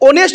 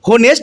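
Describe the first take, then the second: First: The word starts directly with a vowel sound. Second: The word starts with an audible h sound. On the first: The speaker calls it right. "ओनेस्ट बोलते हैं" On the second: The speaker calls it wrong. "हो होनेस्ट हम नहीं बोलते"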